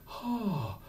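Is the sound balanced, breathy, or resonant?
breathy. The onset is soft with a lot of breath. The speaker calls it wrong. "we don't want a breathy"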